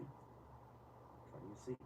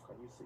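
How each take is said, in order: First: Slow, hushed whisper. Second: Said in the usual way. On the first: Real, not acted. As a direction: breathe the question out slowly, almost secret. Repeats question, drops to whisper.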